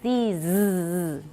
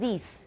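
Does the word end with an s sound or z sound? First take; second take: z sound; s sound. First: The word ends with a buzzing z sound. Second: The word ends with a hissing s sound. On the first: The speaker calls it right. "These 后面是 z" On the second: The speaker calls it wrong. "不是 s，不是 these"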